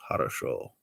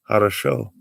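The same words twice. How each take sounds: First: Low mock Russian accent on Хорошо. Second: Said in the usual way. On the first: Streamer greeting Russian viewers in a low mock Russian accent. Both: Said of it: "I do do the Russian accent".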